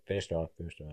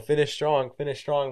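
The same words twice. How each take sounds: First: Softer, deflated; mild resigned coach line; flat consolation. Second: Called out high and loud; loud retold coaching call; coach shouting. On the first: Retold or imitated. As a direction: say it like you know he already failed. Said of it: "They're just like". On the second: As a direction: yell it across the track at a struggling runner. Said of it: "when you fail, they just say".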